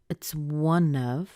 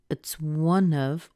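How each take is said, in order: Both takes have the same delivery.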